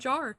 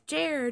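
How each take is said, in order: First: The vowel is an open "ah" sound. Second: The vowel is an "er" sound. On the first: The speaker calls it wrong. "I've always said jar" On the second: The speaker calls it right. "But it's Jer"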